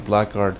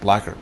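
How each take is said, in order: First: The k and g sounds are both pronounced. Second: The middle sounds merge, like blaggard. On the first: "It's spelled B L A C K G U A R D" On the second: "but it's pronounced blackguard"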